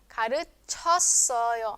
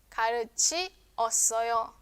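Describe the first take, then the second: First: The vowels i and eo merge into one syllable. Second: The vowels i and eo are separate syllables.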